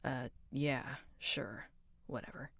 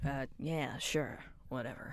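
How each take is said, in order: First: Breathy whisper fading to nothing; whispered whatever. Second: Low, soft dismissive mumble; mumbled whatever. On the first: Sulky character brushing off a question in a whisper. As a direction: barely voice the brush-off. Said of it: "retake against mumble". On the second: Sulky character brushing off a question, low mumble. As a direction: shrug it off under your breath. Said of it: "retake against whisper". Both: Acted.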